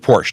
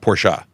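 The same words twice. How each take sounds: First: The word ends without a final vowel sound. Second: The word ends with a final vowel sound. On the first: "she doesn't pronounce the ah in Porsche" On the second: "I'm pretty confident Porsche is correct"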